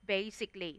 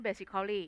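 First: "basically" as bay-sik-lee, softly; correct pronunciation. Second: "basically" as bay-sik-khaw-lee, four syllables; wrong pronunciation. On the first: Teacher recapping the rule, "basically" in three syllables, bay-sik-lee. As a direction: drop the "-al-" in "basically". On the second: Teacher rejecting the spelled reading, "basically" with full -khaw-lee. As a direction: sound out the "-cal-" in "basically". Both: Shown as a demonstration. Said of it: "ไม่ basically".

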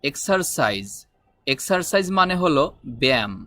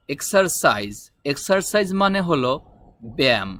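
Both takes have the same delivery.

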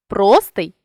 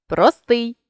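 First: Простий with ПРО stressed; stress on first syllable. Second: Простий with final СТИЙ stressed; stress on last syllable. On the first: Teacher shows a stress variant, простий stressed on ПРО. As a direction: punch the opening ПРО of простий. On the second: Teacher shows a stress variant, простий stressed on СТИЙ. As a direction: land on СТИЙ ending простий. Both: Shown as a demonstration. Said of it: "наголосивши той чи інший склад".

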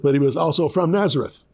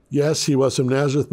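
First: Also leaned on with a knowing innuendo; the word also said slyly, hinting at a slur; stress on also. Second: Said in the usual way. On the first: Shown as a demonstration. Pastor hinting at the slur on Jesus of Nazareth, knowing stress on also. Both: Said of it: "had a certain innuendo".

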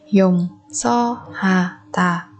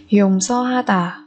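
First: Slow, spaced Dùng so ha tà; syllable by syllable. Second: Said in the usual way. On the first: Shown as a demonstration. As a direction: pause after each syllable of Dùng so ha tà. Teacher splits word by syllable. (đọc chậm Dùng so ha tà từng âm tiết)

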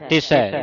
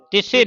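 First: ਤਿਸੈ ending in a broad ai, ti-sai; ਤਿਸੈ with an open ai sound; the right reading of ਤਿਸੈ; correct pronunciation. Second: ਤਿਸੇ ending in a closed e, shown as a mistake; ਤਿਸੇ with a short e ending; the wrong reading of ਤਿਸੈ; wrong pronunciation. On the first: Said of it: "ਦਲਾਵਾਂ ਲੱਗੀਆਂ". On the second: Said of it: "ਨਹੀਂ ਪੜ੍ਹਨਾ ਇਹਨੂੰ". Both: Shown as a demonstration.

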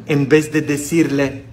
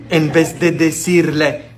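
Both takes have the same delivery.

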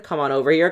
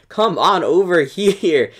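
First: Said in the usual way. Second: Slow, louder teasing call, laughing through it; a slow, laughing come-here taunt. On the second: Pretend. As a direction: coax them over with a laugh. Luring troops, laughing.

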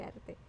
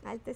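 First: Arte with a clear tapped r, "ar-te"; careful arte. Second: Arte said as "alte", with an l for the r; Puerto Rican arte. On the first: Shown as a demonstration. Guest showing how she learned to say arte: clear r. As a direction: say arte with a crisp r, not an l. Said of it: "Tengo que empezar a decir arte". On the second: Retold or imitated. Guest recalling how she used to say arte: "alte" with l. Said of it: "se oía feo".

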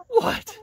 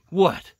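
First: A very high, cooing question; talking to the chicken in a very high pet voice; squeaky pet voice. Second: Said in the usual way. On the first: Real, not acted. Asking the hen, then again.

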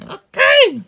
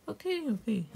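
First: Sudden high, very loud yell; angry outburst. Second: High, soft, placating okays; reluctant giving in. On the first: Snapping after being told to sit down, angry shout. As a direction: explode on the one word. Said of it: "bring up your anger issues". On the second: Answering the order to sit down, quiet giving in. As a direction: give in quietly, pitch raised. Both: Acted.

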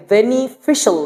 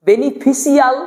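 First: "বেনিফিশিয়াল" said as beni-fi-shal; correct pronunciation. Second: "বেনিফিশিয়াল" said as beni-fi-si-al; spelled-out pronunciation. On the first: Teacher contrasting two readings, "বেনিফিশিয়াল" ending in shal. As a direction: end "বেনিফিশিয়াল" on one syllable, shal. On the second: Teacher contrasting two readings, "বেনিফিশিয়াল" ending in si-al. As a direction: stretch the end of "বেনিফিশিয়াল" into si-al. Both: Shown as a demonstration. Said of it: "কোনটা উচ্চারণ করার মধ্যে".

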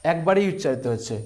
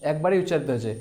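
Both takes have the same delivery.

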